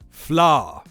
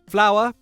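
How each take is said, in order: First: The ending is squashed into one long vowel. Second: The word has a full two-syllable ending.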